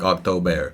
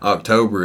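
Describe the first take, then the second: First: It is said with a German accent. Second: It is said with an American accent.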